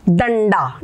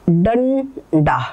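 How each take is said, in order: First: Said in the usual way. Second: डंडा said very slowly, nasal before ड held; slow demo of डंडा. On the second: Shown as a demonstration. Teacher slowly sounding डंडा for the class. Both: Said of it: "हम बताएंगे आपको".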